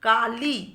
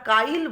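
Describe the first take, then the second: First: The i sound comes after the l. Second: The i sound comes before the l. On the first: "কালি লয়ের পরে ইকার" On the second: "লয়ের আগে ইকারটা উচ্চারিত হচ্ছে"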